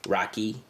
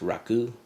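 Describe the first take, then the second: First: The word is said in the Albanian way. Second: The word is said in the Turkish way. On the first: "from Albania they pronounce it Rocky" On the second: "in Turkey it's pronounced Raku"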